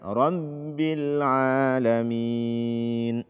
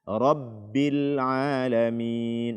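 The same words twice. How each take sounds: First: The b comes out through the nose. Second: The b comes out from the mouth. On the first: The speaker calls it wrong. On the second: The speaker calls it right. "keluarkanlah suaranya dari mulut"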